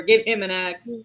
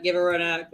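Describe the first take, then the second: First: "him" punched as the correction; "him" stressed against the expected word. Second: Said in the usual way. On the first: Acted. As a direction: lean on "him" to swap it in, amused. Corrects her to him for comedy.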